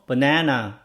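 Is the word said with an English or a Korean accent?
English. It is said with English length and pitch. Listeners understand it. The speaker calls it right. "이렇게 얘기해야지 사람들이 알아들어요"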